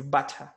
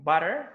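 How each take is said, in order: First: "butter" with a full British T, no final R; British accent. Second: "butter" with an American D sound for the T; American accent. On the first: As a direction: hit the T in British "butter", ending "tuh". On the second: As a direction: flap the middle of American "butter" like "budder". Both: Shown as a demonstration. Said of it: "T into D".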